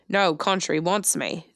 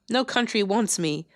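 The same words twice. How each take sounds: First: It is said in an Australian accent. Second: It is said in the speaker's normal accent. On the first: The speaker calls it right. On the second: The speaker calls it wrong.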